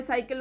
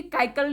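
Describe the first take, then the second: First: "साइकिल" starting with an S sound; correct soft C. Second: "काइकल" starting with a K sound; wrong hard C. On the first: Teacher showing how cycle is read, correct soft C. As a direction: say "साइकिल" with the first C as S. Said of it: "साइकिल होता है". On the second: Teacher showing what cycle is not, wrong hard C. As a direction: say "काइकल" with K in place of S. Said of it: "काइकल नहीं होता है". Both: Shown as a demonstration.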